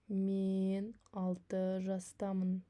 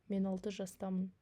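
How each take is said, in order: First: The sentence is spoken slowly. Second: The sentence is spoken at normal speed. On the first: "два раза медленно" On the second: "один раз как бы на обычной скорости"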